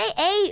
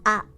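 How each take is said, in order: First: The vowel is said the English way. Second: The vowel is said the Japanese way. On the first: "in English, we say a" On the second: "in Japanese, we want to pronounce this as ah"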